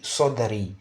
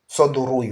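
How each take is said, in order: First: The vowel before the final y is i. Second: The vowel before the final y is u. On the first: The speaker calls it right. "Voilà pourquoi on dit sodari" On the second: The speaker calls it wrong. "qu'on ne dit pas sodrouille"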